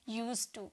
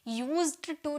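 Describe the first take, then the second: First: No 'd' sound is heard after 'use'. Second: A clear 'd' sound is heard after 'use'. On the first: The speaker calls it right. "बोला जाता है यूज" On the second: The speaker calls it wrong. "यूज्ड to नहीं"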